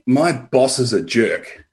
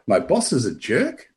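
First: The voice falls at the end like a statement. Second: The voice rises at the end like a question. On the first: It is a flat claim about the boss. "that's got a certain meaning" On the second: It is a softened, questioning thought about the boss. "if I put a question mark after it"

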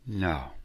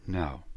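Both takes have the same delivery.

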